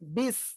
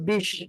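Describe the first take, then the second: First: The word ends with an s sound. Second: The word ends with an sh sound. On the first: The speaker calls it right. "বলতে হবে বিস" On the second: The speaker calls it wrong. "অনেকে বলে বিশ, এটা বললে ভুল"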